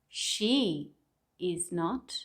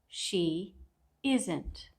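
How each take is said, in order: First: Each word is said separately, in full. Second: The last two words are merged together.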